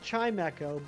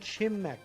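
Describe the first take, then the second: First: The middle sounds like the word 'echo'. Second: The 'ch' sound is repeated in the middle. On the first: The speaker calls it right. "I would go with Chimecho" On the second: The speaker calls it wrong. "It's wrong, but I can understand it"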